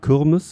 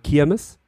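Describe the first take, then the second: First: Düsseldorf style, with an ü-like first vowel. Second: Duisburg style, with an i first vowel.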